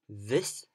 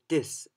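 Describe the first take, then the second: First: It begins with a 'th' sound, tongue out. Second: It begins with a 'd'-like sound. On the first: The speaker calls it right. "the th sound ... 而不是 d 的那个音，是 the。So let's pronounce it again" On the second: The speaker calls it wrong. "Usually we hear this"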